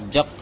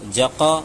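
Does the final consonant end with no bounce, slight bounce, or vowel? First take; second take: no bounce; vowel. First: The final consonant ends with no bounce at all. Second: The final consonant is followed by a full vowel. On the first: "ये कलकला ही नहीं हुआ" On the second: "ये गलत हो गया क्योंकि ज़बर तरह मालूम होने लगा"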